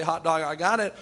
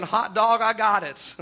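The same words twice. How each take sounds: First: Said in the usual way. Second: Retelling a new convert's gleeful shout; excited hot dog shout. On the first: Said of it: "You don't have to say it that way tonight". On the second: Retold or imitated. Preacher quoting a convert's joy at the altar, mildly excited. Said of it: "You don't have to say it that way".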